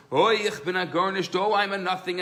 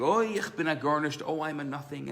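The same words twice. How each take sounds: First: Outdo the first one, louder; screaming louder. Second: Said in the usual way. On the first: Retold or imitated. Second student in study hall crying louder he is nothing. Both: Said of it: "the other one is screaming even louder".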